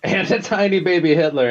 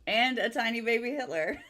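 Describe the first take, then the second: First: Echoing it with a laugh. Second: Giggling through the words; laughing. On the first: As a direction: repeat it, cracking up. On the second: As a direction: laugh as you say it. Laughing while saying it. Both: Real, not acted.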